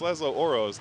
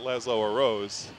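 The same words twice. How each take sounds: First: The name is said in a shorter form. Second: The name is said in a longer form. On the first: The speaker calls it right. "it's Laszlo Oros, ... It'll take you less time to say" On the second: The speaker calls it wrong. "not Laszlo Oros"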